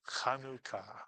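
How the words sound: It is said with a Hebrew pronunciation. The speaker calls it right. "The actual way to pronounce this word, if you're saying it in Hebrew"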